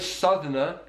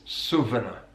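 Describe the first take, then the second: First: The middle consonant is a th sound. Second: The middle consonant is a v sound. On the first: "Instead of Southerner" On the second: "uses V on the T H th sound"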